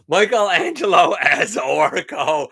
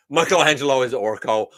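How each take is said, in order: First: Laughing. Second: Said in the usual way. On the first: Real, not acted. Repeats the suggestion, delighted.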